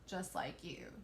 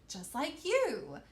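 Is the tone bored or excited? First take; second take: bored; excited. First: The voice sounds flat and bored. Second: The voice sounds lively and excited. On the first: The speaker calls it wrong. "that would be really boring if I read like that" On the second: The speaker calls it right. "you want your voice to sound excited"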